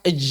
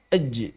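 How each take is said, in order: First: The final j is released weakly, without bounce. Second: The final j bounces out strongly and firmly. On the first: The speaker calls it wrong. "Jangan dibaca ej" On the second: The speaker calls it right. "langsung dipantulkan dengan kuat"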